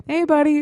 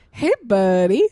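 First: Light higher friendly hello; casual friendly greeting. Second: Friendly greeting. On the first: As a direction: greet him easily, no mockery. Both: Retold or imitated. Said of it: "not like he was laughing at him".

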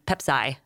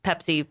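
First: "Pepsi" ending like "sigh"; child's mispronunciation. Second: Said in the usual way. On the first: Retold or imitated. Parent quoting six-year-old, mispronouncing "Pepsi" as PEP-sigh. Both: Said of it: "My six-year-old calls Pepsi".

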